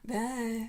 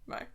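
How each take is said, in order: First: It is said in a seductive, sultry voice. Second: It is said sincerely and earnestly.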